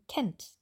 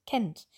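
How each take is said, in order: First: The vowel is short and quick. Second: The vowel is short and quick.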